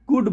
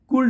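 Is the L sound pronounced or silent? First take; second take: silent; pronounced. First: The word is said without an L sound. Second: The word is said with an L sound. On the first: The speaker calls it right. "हम हमेशा ही कुड बोलते हैं" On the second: The speaker calls it wrong. "कुल्ड नहीं बोलते हैं, ये गलत idea है"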